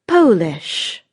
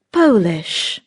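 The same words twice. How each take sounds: The two takes are said the same way.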